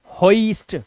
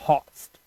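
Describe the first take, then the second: First: "hoist" broken into ho-ist; wrong pronunciation. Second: "hoist" as one syllable with an oy glide; correct pronunciation. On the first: Teacher shows what "hoist" is not, wrong pronunciation. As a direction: misread "hoist" with O and I separate. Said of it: "It's not". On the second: Teacher models "hoist" for learners, correct pronunciation. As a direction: say "hoist" lower, joined as hoyst. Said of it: "it's hoist". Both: Shown as a demonstration.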